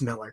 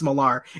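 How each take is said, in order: First: The name ends with an 'er' sound. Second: The name ends with an 'ar' sound. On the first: It is said the way the man himself says it. The speaker calls it right. "It's not. It's Miller" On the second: It is read the way it is spelled. The speaker calls it wrong. "You just look at it. It's Millar"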